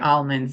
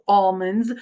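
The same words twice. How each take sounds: First: The first vowel does not sound like 'all'. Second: The first vowel sounds like the word 'all'. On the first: The speaker calls it wrong. "I always say almonds" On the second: The speaker calls it right. "think about the word all"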